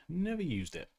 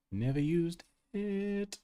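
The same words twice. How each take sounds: First: Said in the usual way. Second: NEVER USED IT slow and high, pausing before IT; playfully drawn out. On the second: Pretend. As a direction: stretch out NEVER USED IT, holding off the last word. Playful stretched repeat.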